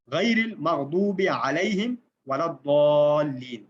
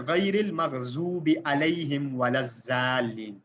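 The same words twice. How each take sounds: First: Slow recitation, heavy Arabic ḍād in المغضوب and الضالین; correct bold letters. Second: Slow المغضوب and الضالین with z for ḍād; thin-letter misreading. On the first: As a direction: recite slowly, ض as a full rounded d in الضالین. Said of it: "اب یہ letters ہیں bold سارے". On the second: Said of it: "سارے کے سارے باریک اور letter ہی change". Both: Shown as a demonstration.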